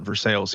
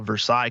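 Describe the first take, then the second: First: The name is said the way locals say it. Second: The name is said the way outsiders say it. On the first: This is how people in the town say the name. "we call it Versailles here" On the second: This is how people elsewhere say the name. "what you call"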